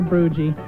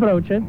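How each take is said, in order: First: The word is pronounced with English-style sounds. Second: The word is pronounced with Dutch-style sounds. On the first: The speaker calls it wrong. "Typical American, taking any combination of letters, pronouncing it in English" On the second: The speaker calls it right. "which is just a sandwich"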